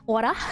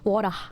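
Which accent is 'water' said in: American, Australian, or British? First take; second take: Australian; Australian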